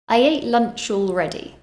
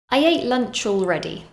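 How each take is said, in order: The two takes are said the same way.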